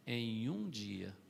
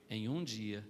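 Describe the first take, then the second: First: Em um dia drawn out very slowly; preacher stressing a single day, slowly; slow emphasis. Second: Said in the usual way. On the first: Acted. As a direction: let Em um dia sink in slowly. Repeated for emphasis.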